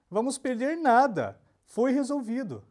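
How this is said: The pause comes right after the word nada. We will lose nothing; it was resolved. "se a gente desloca a vírgula para frente do nada"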